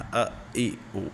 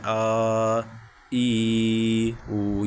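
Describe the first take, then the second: First: The vowels are cut off with a jolt. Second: The vowels are stretched out long. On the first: "इनको झटका भी नहीं देना" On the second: "इनको खींचते भी नहीं हैं, जैसे"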